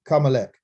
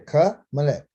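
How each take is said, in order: First: The word is rushed together quickly. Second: The word is said slowly, prefix separated. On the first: The speaker calls it wrong. "You said it too fast" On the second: The speaker calls it right. "pronunciate the preposition as if it's by itself"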